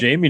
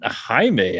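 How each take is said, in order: First: The name is said the plain American way. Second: The name is said the non-American way. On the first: This is how local fans said the name. The speaker calls it wrong. "We called him Jamie. Yeah, it was it was always" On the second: This is how the name is properly said. The speaker calls it right. "that that'd be the correct pronunciation"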